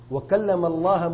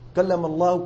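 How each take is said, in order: First: The word Allah ends with an a vowel. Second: The word Allah ends with a u vowel. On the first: Moses is the one who spoke to God. The speaker calls it wrong. "تو کلام موسیٰ نے کیا اللہ تعالیٰ سے" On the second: God is the one who spoke to Moses. The speaker calls it right. "کلام اللہ تعالی نے فرمایا ہے، اور موسیٰ مفعول بھی ہے"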